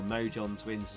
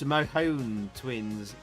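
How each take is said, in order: First: The name is said the usual English way. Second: The name is said in a non-English way.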